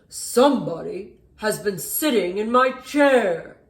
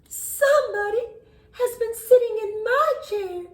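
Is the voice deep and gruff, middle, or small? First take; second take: deep gruff; middle. First: A deep, rough, gruff big bear voice. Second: A medium, in-between middle-sized bear voice.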